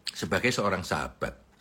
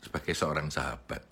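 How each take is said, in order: First: Said in the usual way. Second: Soft echo. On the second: Shown as a demonstration. Speaker echoes his own phrase softly to the audience. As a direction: repeat sebagai seorang sahabat softer and lower.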